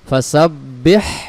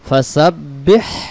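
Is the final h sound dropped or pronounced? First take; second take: pronounced; pronounced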